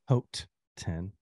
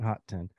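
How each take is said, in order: First: The first word sounds like 'oat'. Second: The first word sounds like 'hot'. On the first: The speaker calls it right. "like Haute Couture" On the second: The speaker calls it wrong. "not Hot 10"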